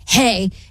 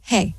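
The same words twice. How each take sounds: First: It is said in an angry voice. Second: It is said in a flat monotone.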